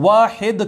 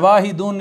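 First: The word ends on a bare d sound. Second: The word ends with an added -un sound. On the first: "वाहिद कह दिया वाहिदुन की बजाय" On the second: "इनके एंड पे दो पेश है"

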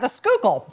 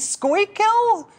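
First: The name is said the local way. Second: The name is sounded out from its spelling. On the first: The speaker is from the city. The speaker calls it right. "if you can say it right" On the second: The speaker is an outsider. The speaker calls it wrong. "looks like it should be pronounced Schuylkill"

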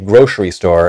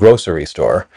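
First: The middle consonant of grocery sounds like sh. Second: The middle consonant of grocery sounds like s.

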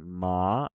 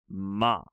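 First: The pitch rises through the syllable. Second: The pitch falls through the syllable. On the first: "a rising ma" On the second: "a falling ma"

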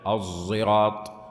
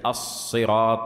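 First: The first consonant blends emphatic s with z. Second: The first consonant is a plain emphatic s. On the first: "يعني فيها جمع بين الحرفين" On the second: "ليست الصراط"

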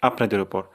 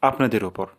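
No difference in how they are said.

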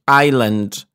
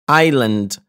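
The two takes are said the same way.

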